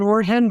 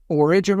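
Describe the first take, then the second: First: "origin" said higher, as Spanish "orihen"; Spanish-style pronunciation. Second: Said in the usual way. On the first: Shown as a demonstration. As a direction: say "origin" with an h sound for the g. Word repeated in Spanish-sounding way.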